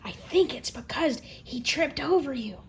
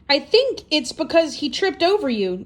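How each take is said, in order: First: It is said in a soft whisper. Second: It is said in a normal speaking voice.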